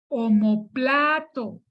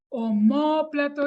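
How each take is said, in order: First: The stress is on the third syllable. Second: The stress is on the second syllable. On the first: The speaker calls it wrong. "Como plato se pronuncia así" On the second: The speaker calls it right. "Omóplato es una palabra esdrújula"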